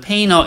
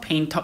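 First: The t is dropped, n linking straight to er. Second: The t is clearly pronounced after the n. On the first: "n하고 er 바로 연결해서 painter 이렇게 발음하기도 하고" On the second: "물론 painter 이렇게 하기도 합니다"

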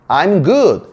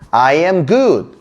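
First: I am is run together into I'm. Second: I am is said as two full words. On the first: "빨리 발음하면 I'm이 돼요" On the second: "I am인데"

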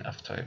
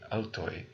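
First: The second sound is a consonant F. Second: The second sound is a vowel U. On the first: This is the modern pronunciation. "is pronounced as an F" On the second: This is the ancient pronunciation. "In ancient Greek, this would be autoi"

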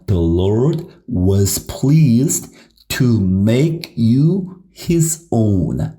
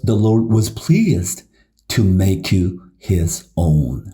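First: The sentence is read at a normal pace. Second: The sentence is read at a fast pace.

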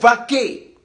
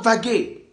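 First: The middle consonant is a voiceless k sound. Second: The middle consonant is a voiced g sound. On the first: The speaker calls it right. "mais vaquer" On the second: The speaker calls it wrong. "On ne dit pas vaguer"

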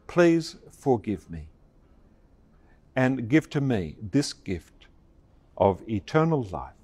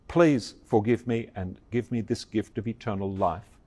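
First: It is said slowly. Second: It is said at a normal pace.

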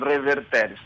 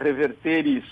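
First: It is said with Italian-style Church Latin pronunciation. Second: It is said with a Spanish-style pronunciation. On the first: "eles pronunciam ao modo italiano" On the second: "ele tinha tendência de dizer reverteris"

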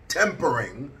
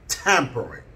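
First: The first vowel sounds like 'e' in 'tempo'. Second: The first vowel sounds like 'a' in 'tap'. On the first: The speaker calls it wrong. "It's not tampering" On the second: The speaker calls it right. "it's tampering. That's the correct terminology"

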